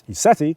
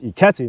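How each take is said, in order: First: The middle consonant is a soft S sound. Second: The middle consonant is a hard K sound. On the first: The speaker calls it wrong. "not ISETI" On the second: The speaker calls it right. "I call it IKETI"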